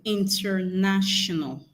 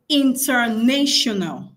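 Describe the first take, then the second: First: "International" with NASH in the middle; short A as in "gnat" inside "International"; correct pronunciation. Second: "international" with NAY in the middle; long A as in "nation" inside "international"; wrong pronunciation. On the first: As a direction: say "International" as inter-NASH-unal, slow and measured. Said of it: "let's pronounce the right things". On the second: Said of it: "Some people say". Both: Shown as a demonstration.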